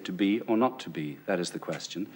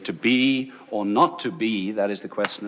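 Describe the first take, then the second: First: It is said with natural, clear inflection. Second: It is said with heavily overdone inflection.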